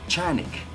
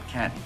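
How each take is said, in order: First: The name is said with a Turkish pronunciation. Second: The name is said with an English pronunciation. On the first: The speaker calls it right. "the proper name would be Canik" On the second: The speaker calls it wrong. "not Canik"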